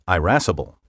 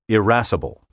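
First: The first vowel is a long I sound. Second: The first vowel is a short I sound.

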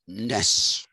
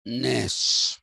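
First: The vowel is short. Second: The vowel is between short and long. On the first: The speaker calls it wrong. "So it's not Arne Naess" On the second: The speaker calls it right. "It is Arne Naess. ... somewhere in between that"

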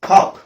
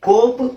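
First: The vowel is an open 'aa' sound. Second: The vowel is a long rounded 'oh' sound. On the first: The speaker calls it right. "ಇಲ್ಲೆಲ್ಲ ನಿಮಗೆ ಆ ಆ ಆ sound ಬರುತ್ತೆ" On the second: The speaker calls it wrong. "ಓ ಆದ್ರೆ ಇದು"

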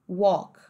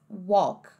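The two takes are said the same way.

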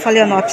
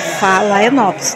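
First: The name is said quickly in a shortened form. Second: The name is said carefully with all its syllables. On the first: This is the casual everyday way of saying it. The speaker calls it wrong. "A gente fala Phalaenops, né, gente? Quando a gente fala rápido" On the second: This is the proper form of the name. The speaker calls it right. "mas é Phalaenops"

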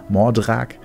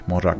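First: The name is pronounced in a German way. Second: The name is pronounced in a non-German way.

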